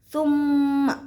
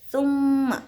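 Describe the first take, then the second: Both takes have the same delivery.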